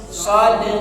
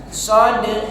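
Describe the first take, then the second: Both takes have the same delivery.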